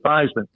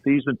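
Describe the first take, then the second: First: The name rhymes with Heisman. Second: The name does not rhyme with Heisman. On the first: A new pronunciation meant to help win a trophy. "to Theismann" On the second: The family's original pronunciation. "changing the pronunciation of your last name from Thiesman"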